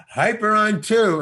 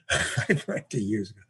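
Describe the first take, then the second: First: Said in the usual way. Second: Repeats the film line while laughing. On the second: Shown as a demonstration. Amused storyteller laughing at his own old film line. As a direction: chuckle through the line.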